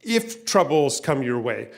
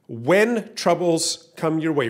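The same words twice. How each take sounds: First: Slow, with If drawn out and set apart; stress on If. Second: Slow, When stretched and raised; emphatic When, then measured; stress on When. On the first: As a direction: hold up the word If as the wrong option. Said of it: "He doesn't say "if". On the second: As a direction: drive home the word When as a certainty. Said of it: "the very first word he says ... is "when". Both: Shown as a demonstration.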